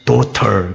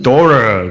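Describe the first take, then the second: First: It is said with a crisp British accent. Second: It is said with an American accent. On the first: "영국에서는 그냥 발음을 아주 거칠면서 뚜렷하게 해요" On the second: "미국 발음으로는"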